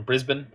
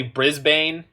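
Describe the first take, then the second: First: "Brisbane" with a reduced second syllable, Briz-bun; "Brisbane" the local way, second syllable swallowed; local Australian pronunciation. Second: "Brisbane" with a full "bane" second syllable; "Brisbane" as spelt, Briz-BAYN; Canadian pronunciation. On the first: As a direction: say "Brisbane" so it ends like "bin". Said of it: "but he's from Brisbane". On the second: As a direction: say "Brisbane" to rhyme its ending with "rain". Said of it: "I'm gonna say Brisbane". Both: Shown as a demonstration.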